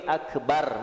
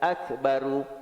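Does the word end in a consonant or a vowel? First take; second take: consonant; vowel. First: The word ends on the consonant r, no vowel. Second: The word ends with a short u vowel. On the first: "Sebelum ni akbar, matikan" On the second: "Yang ni akbaru"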